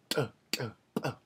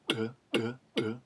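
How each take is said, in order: First: The stops are ejective, with a popping burst. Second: The stops are implosive, with an inward-sucking sound. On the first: "Ejective stops" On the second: "Implosive stops"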